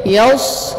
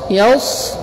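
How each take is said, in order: Both takes have the same delivery.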